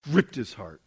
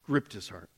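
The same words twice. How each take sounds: First: Said in the usual way. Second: "Gripped his heart" repeated lower and softer, letting it sink in; soft echo. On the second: Shown as a demonstration. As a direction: say "Gripped" again quietly, almost to yourself.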